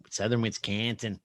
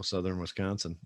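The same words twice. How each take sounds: First: "Southern Wisconsin" in broad Wisconsin accent; thick southern Wisconsin accent; Wisconsin dialect. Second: Said in the usual way. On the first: Shown as a demonstration. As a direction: lay on the Wisconsin vowels, flattened "Wis-CAN-sin". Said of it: "we have this weird dialect here".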